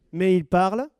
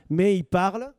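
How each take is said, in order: Both takes have the same delivery.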